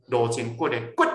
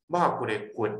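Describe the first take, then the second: First: The last 骨 short and high; eighth tone, high stop. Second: The last 骨 short and low; fourth tone, low stop. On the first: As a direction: pop the final 骨 up high and cut it off. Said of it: "第八声". (「骨」高斷音) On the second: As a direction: drop the final 骨 low and cut it off. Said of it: "就是第四声". (「骨」低斷音) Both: Shown as a demonstration.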